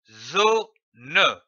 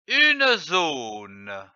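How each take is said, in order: First: "zone" split in two, zo, then ne; syllable by syllable. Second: Said in the usual way. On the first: Shown as a demonstration. Teacher showing how two syllables give the word, syllable by syllable. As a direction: sound out "zone" as zo ... ne, final e fully voiced. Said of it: "L'association de ces deux syllabes donne".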